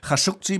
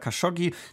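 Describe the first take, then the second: First: The name has an Arabic-style pronunciation. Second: The name has a Western-style pronunciation.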